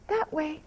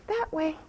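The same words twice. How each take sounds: The two takes are said the same way.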